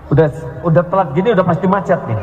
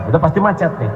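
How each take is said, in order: First: Fast grumble. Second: Said in the usual way. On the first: Retold or imitated. Grumbling about traffic.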